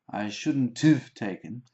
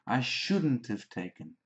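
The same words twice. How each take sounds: First: The word shouldn't is not stressed. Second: The word shouldn't carries the stress. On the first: The speaker calls it wrong. "Sometimes students say shouldn't have" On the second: The speaker calls it right. "but the stress is on shouldn't"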